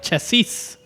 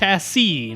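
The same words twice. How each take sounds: First: The word ends with an audible s sound. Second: The word ends without an s sound. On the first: The speaker calls it wrong. "not chassis" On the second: The speaker calls it right. "the third S is silent. Yep, it's chassis"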